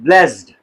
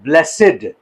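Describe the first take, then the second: First: The word is said as one syllable. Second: The word is said as two syllables. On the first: The word is used as a verb. "As verb जब use होगा ये it is pronounced as ब्लेस्ड" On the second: The word is used as an adjective. "जब as adjective use होगा ब्लेसेड"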